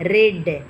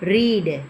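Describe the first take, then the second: First: The vowel is a short e sound. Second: The vowel is a long ee sound.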